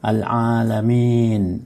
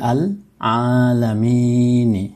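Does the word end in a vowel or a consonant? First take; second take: consonant; vowel. First: The word ends on the n consonant. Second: The word ends with an i vowel after n. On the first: The recitation stops after this word. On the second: The recitation continues after this word.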